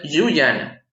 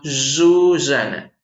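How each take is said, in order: First: "Yuyana" slowly with a consonant y, "ʝuʝana"; "Yuyana" with a firm Spanish y; "Yuyana" said slowly, hard y; wrong y sound. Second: "Susana" slowly with a dragged zh, "zhuzhana"; "Susana" with a buzzing drawn-out zh; dragged ll sound. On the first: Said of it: "No es Yuyana". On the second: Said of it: "Suena un tanto arrastrada". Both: Shown as a demonstration.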